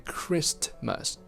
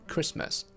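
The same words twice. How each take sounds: First: The t sound is pronounced before the m. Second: The t sound is dropped before the m. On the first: The speaker calls it wrong. "We never say Christmas" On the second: The speaker calls it right. "We drop the t"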